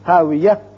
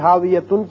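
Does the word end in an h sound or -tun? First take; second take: h sound; -tun. First: The word ends with an h sound. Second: The word ends with a -tun sound. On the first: The reader stops on this word. "وقت کی صورت میں تا ہتائیہ ہا بن جائے گی" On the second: The reading continues without stopping. "ہاویتن کی بجائے"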